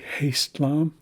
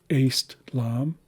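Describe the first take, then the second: First: The word begins with an h sound. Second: The word begins without an h sound. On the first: The speaker calls it wrong. "it's not actually Haste-lam" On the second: The speaker calls it right. "it's Aste-lam"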